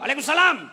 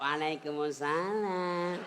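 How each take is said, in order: First: It is said loudly in a blunt, harsh voice. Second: It is said softly in a sweet, alluring voice.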